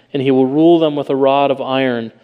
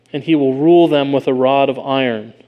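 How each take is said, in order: Both takes have the same delivery.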